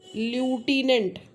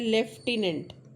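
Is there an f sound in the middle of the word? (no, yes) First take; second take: no; yes. First: The middle has no f sound. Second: The middle has an f sound. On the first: The speaker calls it wrong. "मैं जानबूझ के बोल रही हूँ ये word ल्यूटिनेंट, पर ये ल्यूटिनेंट नहीं है" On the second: The speaker calls it right. "ये जो बीच में साउंड है ये एफ का साउंड"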